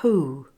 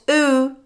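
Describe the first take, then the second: First: The word starts with a clear breathy h sound. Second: The word starts straight on the vowel, no h. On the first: The speaker calls it right. "If H is at the beginning of a word, we normally say it" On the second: The speaker calls it wrong. "Not oo"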